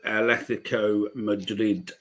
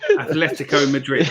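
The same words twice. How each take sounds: First: It is said with a Spanish-style accent. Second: It is said with an ordinary English accent.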